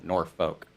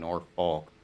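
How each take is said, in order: First: The word is said with the L silent. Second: The word is said with the L sounded. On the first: This is how locals actually say it. The speaker calls it right. "But it's uh, pronounced no Norfolk" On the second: This is how the spelling suggests it. The speaker calls it wrong. "So you think Norfolk"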